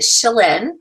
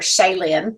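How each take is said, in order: First: The name is said with its standard pronunciation. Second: The name is said with an Oklahoma pronunciation. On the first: The speaker calls it right. "but you pronounce it Shalyn" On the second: The speaker calls it wrong. "I was calling her Shaylin because I'm from Oklahoma"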